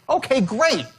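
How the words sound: It sounds warmly enthusiastic. The speaker calls it right. "Enthusiastic, right?"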